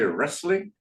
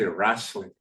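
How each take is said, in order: First: The word has its usual standard pronunciation. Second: The word has an old-fashioned, folksy pronunciation. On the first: "they don't say wrestling" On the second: "they'll say wrestling"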